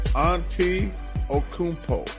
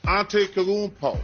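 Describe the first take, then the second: First: The name is said slowly, syllable by syllable. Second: The name is said quickly in one smooth run. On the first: The speaker calls it right. "let me sound it out. ... I think I got that right" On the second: The speaker calls it wrong. "I know I'm not saying it right"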